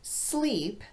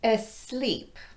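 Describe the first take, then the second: First: The word starts directly with the s sound. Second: A short vowel is added before the s. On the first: The speaker calls it right. "instead of sleep" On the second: The speaker calls it wrong. "they might say asleep"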